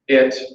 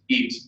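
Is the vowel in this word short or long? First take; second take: short; long. First: The vowel is a short, lax i sound. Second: The vowel is a long, tense ee sound. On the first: The speaker calls it right. "it for a short I" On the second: The speaker calls it wrong. "my learners are saying eat"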